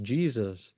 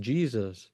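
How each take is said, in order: First: The name is pronounced the English way. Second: The same.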